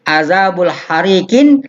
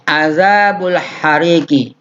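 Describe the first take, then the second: First: The last word ends with an added n sound. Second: The last word ends on a plain i vowel. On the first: The speaker calls it wrong. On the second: The speaker calls it right.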